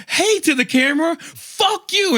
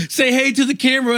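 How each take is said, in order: First: Very high mock-greeting into a curse; retold indignant singsong comeback; defiant echo. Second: Quick, high-pitched taunt; lightly acted goading, said fast; taunting driver. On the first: Passenger answers driver's camera taunt, defiant and high. Passenger mockingly echoes, then swears. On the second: Driver goads passenger with dash camera, taunting.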